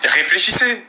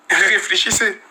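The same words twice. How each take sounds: First: Said in the usual way. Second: Slowed, with a laugh; relaxed chuckling repeat; amused repeat. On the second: Real, not acted. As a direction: laugh as you say it again, slower. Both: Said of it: "Vous voyez pas comment je suis décontracté".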